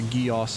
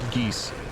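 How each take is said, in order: First: It sounds like two syllables, 'gee-os'. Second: It sounds like one syllable, 'geese'. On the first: The speaker calls it wrong. "which is not how you pronounce it" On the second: The speaker calls it right. "it's just called geese"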